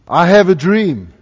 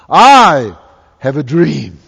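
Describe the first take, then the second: First: It is said in a plain, less dramatic way. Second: It is said in a big, dramatic way.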